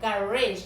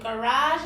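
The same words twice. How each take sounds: First: Garage said GA-rizh, stress at the start; second garage stressed on the first syllable; garage with a front stress; garage, other way. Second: Garage said kuh-RAHZH, stress at the end; first Garage stressed on the last syllable; Garage with a final rahzh; garage, one way. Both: Shown as a demonstration. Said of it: "there you have it".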